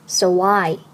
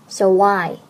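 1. 这两个词之间用w音连起来。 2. 这两个词之间用w音连起来。

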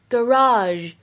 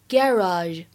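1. 这是美式发音。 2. 这是英式发音。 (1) "美式当中呢会读成garage" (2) "在英式英语当中呢，一般来说读作garage"

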